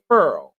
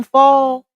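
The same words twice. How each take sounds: First: "furl" with an r sound, imitating grandma; grandma's furl for foil. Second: "fall" said plain and open, no r; own fall for foil. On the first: Showing the chat her grandma's thick-accented furl. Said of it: "she say furl". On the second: Shown as a demonstration. Her own plain way of saying foil, fall. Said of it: "when she say, like, aluminum fall".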